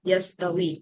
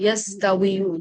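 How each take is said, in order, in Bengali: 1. শব্দটি একটি সংক্ষিপ্ত '-wi' ধ্বনি দিয়ে শেষ হয়। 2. শব্দটির শেষে একটি অতিরিক্ত '-yu' উচ্চারণ আছে। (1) "লম্বাটাকে একটা জজম করে দেওয়া" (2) "দেখেন কতটা আনস্মুথ"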